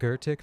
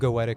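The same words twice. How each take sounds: First: The first syllable sounds like German 'gö'. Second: The first syllable sounds like 'go'.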